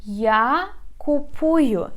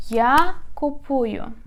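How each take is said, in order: First: Я купую said slowly and clearly, syllable by syllable; slow model pronunciation. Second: Я купую stressed on Я, a little slow; model pronunciation. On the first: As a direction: spell out Я купую slowly for learners. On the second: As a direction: repeat Я купую with weight on Я. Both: Shown as a demonstration. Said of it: "you say я".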